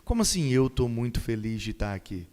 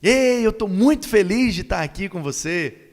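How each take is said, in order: First: Low-pitched, joyless delivery; drained of all enthusiasm; unenthusiastic. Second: High, loud burst of joy; exuberant, raised-voice welcome; happy and enthusiastic. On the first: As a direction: claim to be happy without sounding it. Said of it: "não tá coerente com a mensagem que ele trouxe". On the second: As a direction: greet them with delighted energy. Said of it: "É diferente". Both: Shown as a demonstration.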